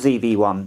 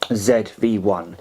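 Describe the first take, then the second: First: The letter Z is said the American way. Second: The letter Z is said the British way. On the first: "if you prefer" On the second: "here in the U K we pronounce Z, uh, the Z as Z, so that's what I'm going to do"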